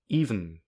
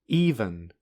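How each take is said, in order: First: No vowel is heard between v and n. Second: A vowel is heard between v and n. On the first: "In this pronunciation, there is no vowel" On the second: "which has a vowel between v and n"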